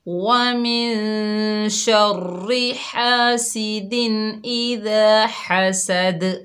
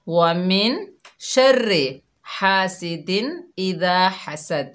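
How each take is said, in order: First: The final d bounces, with a whistling s. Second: The final d is flat, with a hissless s. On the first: The speaker calls it right. "तो हम सही कैसे पढ़ेंगे?" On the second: The speaker calls it wrong. "इस तरह पढ़ती हैं। ... दाल में कलकला नहीं हुआ"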